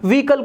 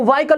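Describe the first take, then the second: First: The first vowel sounds like 'ee'. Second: The first vowel sounds like 'ai'. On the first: The speaker calls it right. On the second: The speaker calls it wrong.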